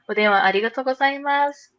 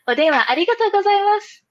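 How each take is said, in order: First: It is said in a plain, ordinary voice. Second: It is said in a cheerful, put-on voice.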